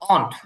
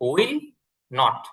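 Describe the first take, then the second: First: It is said as one short contracted word. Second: It is said as two full separate words.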